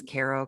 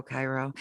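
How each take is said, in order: First: Cairo said as KAY-roh or CARE-oh; Cairo, first syllable like "care"; mispronounced Cairo. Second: Cairo said as KYE-roh; Cairo, opening like "kye"; correct Cairo. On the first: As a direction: say Cairo with an "air" vowel first. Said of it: "that's how you pronounce it. I always". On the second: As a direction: say Cairo with first syllable rhyming with "eye". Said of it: "that's how you pronounce it". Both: Shown as a demonstration.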